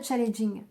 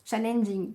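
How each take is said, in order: First: Challenging stumbled over as "cha-le-jing", French accent; mispronounced English. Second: Challenging redone as "cha-len-jing", n restored; corrected English pronunciation. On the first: Tarot reader reading out the card's advice, challenging mispronounced as "cha-le-jing". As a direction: say challenging with the first n dropped. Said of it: "Excusez-moi pour mon, pour mon accent".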